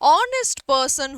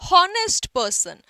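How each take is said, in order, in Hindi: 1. यह स्वर ध्वनि से शुरू होता है। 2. यह h ध्वनि से शुरू होता है। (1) "होगा" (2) "ना कि"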